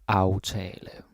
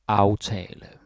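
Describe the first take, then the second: The two takes are said the same way.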